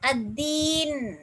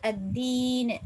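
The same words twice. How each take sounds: First: The final consonant ends cleanly with no vowel. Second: The final consonant carries a faint, short vowel. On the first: "சுக்கூன் வைக்கிறோம்" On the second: "உங்களுக்கு விருப்பம் என்றால் அத்தீன் என்று மோதலாம்"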